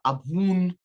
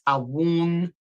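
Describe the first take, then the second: First: The middle consonant is a b with closed lips. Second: The middle consonant is a soft w sound. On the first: "where you kind of, you know, like doing a little kiss" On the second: "some people pronounce this Awun"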